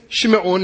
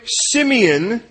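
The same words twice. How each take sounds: First: Shimeon with a SH sound, SHIM-ee-on. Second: Simeon said the usual English way, SIM-ee-on; plain English Simeon, S sound. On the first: Preacher correcting to the Hebrew name, Shimeon. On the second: Preacher giving the familiar name first, then Simeon. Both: Shown as a demonstration.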